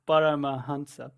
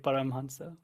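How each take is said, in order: First: A vowel is heard between the m and h. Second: No vowel is heard between the m and h. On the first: This is the classical scriptural form. "in Sanskrit it would be Paramahansa" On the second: This is the modern everyday form. "in India they made you say Paramhansa"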